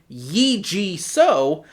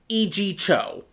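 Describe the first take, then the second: First: The surname begins with an s sound. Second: The surname begins with a ch sound. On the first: The speaker calls it wrong. "I've been pronouncing his name wrong" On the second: The speaker calls it right. "when it's actually"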